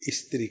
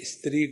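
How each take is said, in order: First: An "i" vowel is added before the s-sound. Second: It starts directly with the s-sound.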